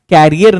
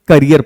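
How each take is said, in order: First: The first vowel is long, like in 'care'. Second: The first vowel is short, like 'kuh'. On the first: The speaker calls it wrong. "कैरियर नहीं पढ़ते" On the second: The speaker calls it right. "उसकी correct pronunciation करियर होती है"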